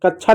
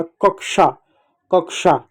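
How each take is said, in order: First: कक्षा mispronounced "kach-chha"; wrong chh sound. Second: कक्षा said "kak-sha"; k then sh in कक्षा; correct sh sound. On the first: Teacher warning children of a mistake, कक्षा as "kach-chha". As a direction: say कक्षा with chh replacing ksh. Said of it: "कक्षा नहीं होता है". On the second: Teacher repeating it right for children, कक्षा as "kak-sha". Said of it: "श जैसा इसका उच्चारण होता है". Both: Shown as a demonstration.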